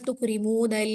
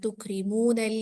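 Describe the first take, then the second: First: The final 'nal' sound is held too long. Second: The final 'nal' sound is kept short and smooth. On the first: The speaker calls it wrong. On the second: The speaker calls it right.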